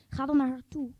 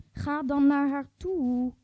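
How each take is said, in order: First: Said in the usual way. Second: Dan stretched long and slow; slow insistent push on dan; stress on dan. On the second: Shown as a demonstration. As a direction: drag out dan, urging. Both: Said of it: "repeated urging".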